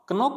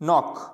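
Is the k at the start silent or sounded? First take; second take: sounded; silent. First: The k at the start is sounded. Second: The k at the start is silent. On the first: The speaker calls it wrong. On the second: The speaker calls it right.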